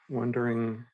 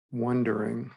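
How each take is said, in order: Both takes have the same delivery.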